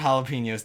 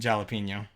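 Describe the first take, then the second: First: The first letter is sounded like an H. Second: The first letter is sounded like a J. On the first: The speaker calls it right. "Usually I pronounce it jalapenos, don't worry" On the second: The speaker calls it wrong. "I used to pronounce it jalapeno. But I was like a kid"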